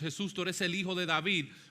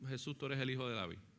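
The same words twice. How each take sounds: First: It is said with passionate emotion. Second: It is said flatly, without emotion.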